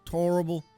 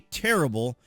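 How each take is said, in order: First: The first vowel is a rounded 'or' sound. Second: The first vowel is a plain 'eh' sound. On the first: "Charles Barkley says torrible" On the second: "Charles Barkley wouldn't say terrible"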